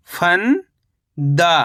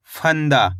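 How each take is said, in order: First: फंदा as long rising "fan", pause, "daa"; split syllables. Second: Said in the usual way. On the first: Shown as a demonstration. Teacher breaking down फंदा for learners, split syllables. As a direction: stretch फंदा into two separate syllables. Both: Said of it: "कैसे पढ़ेंगे?".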